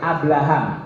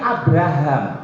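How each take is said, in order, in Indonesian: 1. Konsonan tengahnya diucapkan sebagai L. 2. Konsonan tengahnya diucapkan sebagai R. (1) "Bilangnya begitu, Abraham. Kedengerannya pakai R apa pakai L? L" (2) "Nama yang benarnya Abraham"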